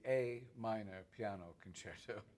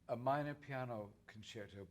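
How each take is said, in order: First: The first word is a full 'ay' sound. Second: The first word is a weak 'uh' sound. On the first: It names the key of the concerto. The speaker calls it right. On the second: It means some minor concerto, not a key. The speaker calls it wrong.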